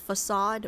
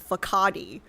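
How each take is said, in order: First: The c is said like an S. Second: The c is said like a K. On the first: The speaker calls it right. "this says facade" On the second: The speaker calls it wrong. "I was reading this word as facade for the longest time as a kid"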